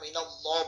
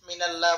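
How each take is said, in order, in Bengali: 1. আল্লাহ শব্দের লাম মোটা ও ভারী। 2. আল্লাহ শব্দের লাম পাতলা ও হালকা। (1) "আল্লাহ শব্দকে মোটা করে উচ্চারণ করতে হবে" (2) "মিনাল্লাহ বলা যাবে না"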